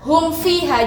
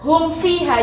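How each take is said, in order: First: The m sound is pronounced clearly. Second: The same.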